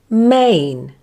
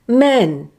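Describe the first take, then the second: First: The vowel glides from one sound into another. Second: The vowel is one long, steady sound. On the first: The speaker calls it right. "the first sound is slightly longer than the second sound and has more emphasis, like this" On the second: The speaker calls it wrong. "use a long simple vowel sound instead, like this"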